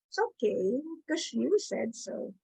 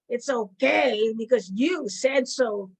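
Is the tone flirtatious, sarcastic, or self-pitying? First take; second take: flirtatious; sarcastic. First: It is said in a sweet, flirtatious tone. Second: It is said in a mocking, sarcastic tone. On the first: The speaker is charming a date. "if I'm out on a date, I'll go" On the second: The speaker does not think it is okay. "Or it can be sarcastic"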